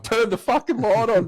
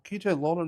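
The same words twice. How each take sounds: First: Higher-pitched, exasperated mock demand; retold urgent command; dead serious. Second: Casual, polite request, softer and a bit higher; easygoing, respectful ask; playing it cool. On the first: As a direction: demand it urgently, acting out the outburst. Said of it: "give her the level of my fucking seriousness". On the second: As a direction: ask nicely, keeping the urgency hidden. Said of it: "I'm still trying to play".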